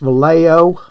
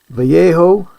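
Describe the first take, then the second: First: It is said with an American pronunciation. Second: It is said with a Spanish-style pronunciation.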